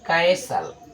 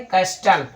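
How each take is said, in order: First: The t sound is silent in the middle. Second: The t sound is pronounced in the middle. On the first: The speaker calls it right. "टी आपका silent हो जा रहा है" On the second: The speaker calls it wrong. "अशुद्ध है कैस्टल"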